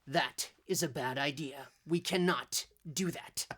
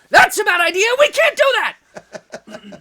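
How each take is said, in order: First: Robin's line is said slowly and evenly. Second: Robin's line is said fast and excitedly.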